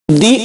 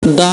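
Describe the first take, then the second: First: ది as "dee", for use before vowels; pronounced "dee". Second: ద as "da", for use before consonants; pronounced "da". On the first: Teacher giving the form before vowel sounds: ది, pronounced "dee". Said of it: "ది అని pronounce చేయాలి". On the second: Teacher giving the form before consonant sounds: ద, pronounced "da". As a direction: say ద with an open "a". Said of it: "అని pronounce చేయాలి". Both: Shown as a demonstration.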